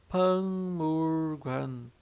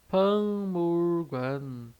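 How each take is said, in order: No difference in how they are said.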